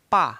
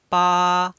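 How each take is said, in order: First: The pitch falls sharply from high to low. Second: The pitch stays high and level. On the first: "menekan dari atas ke bawah" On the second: "nada datar"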